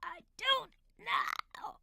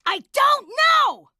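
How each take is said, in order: First: Slow, airy whisper; voiceless, drawn-out repeat. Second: Sudden full-volume shout; high, exasperated yell. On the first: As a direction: drag it out in a strained whisper. Repeats, still too quiet to hear. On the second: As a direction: blast it out far too loud. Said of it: "Could you please stop shouting". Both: Acted.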